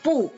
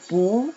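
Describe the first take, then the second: First: The pitch falls sharply downward. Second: The pitch rises upward. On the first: "dibaca dengan nada keempat" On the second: "bacanya menjadi nada kedua"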